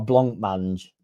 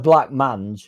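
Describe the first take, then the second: First: The first syllable ends with a nasal sound. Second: The first syllable ends with a hard k sound. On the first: The speaker calls it right. "Must be a blanc mange" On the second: The speaker calls it wrong. "I'm saying that wrong"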